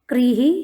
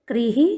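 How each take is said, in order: Both takes have the same delivery.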